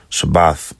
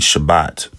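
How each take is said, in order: First: The word ends with a th sound. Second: The word ends with a t sound. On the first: "instead of the da or the th" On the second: "the way that they say Shabbat"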